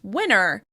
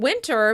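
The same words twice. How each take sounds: First: The middle T drops, sounding like winner. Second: The middle T is clearly pronounced.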